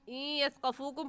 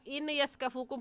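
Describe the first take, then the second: First: The n merges, nasalized, into the following y. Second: The n is said separately before the y. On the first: The speaker calls it right. "इन यस्क़फ़ूकुम पढ़ा जाएगा, ... गुन्ना करने के साथ साथ इदगाम भी होगा" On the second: The speaker calls it wrong. "पढ़ना गलत होगा"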